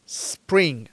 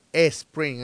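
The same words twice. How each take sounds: First: "spring" starting straight on a long hissed S. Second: "spring" said as "espring", with a vowel before the S; added initial E. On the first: Teacher modelling it for learners, "spring" opened by a pure S. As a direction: hiss into "spring" with no vowel before it. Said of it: "Tú vas a decir". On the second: Teacher showing learners the mistake, "spring" begun with an E. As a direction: put an E in front of "spring". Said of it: "no vas a decir". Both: Shown as a demonstration.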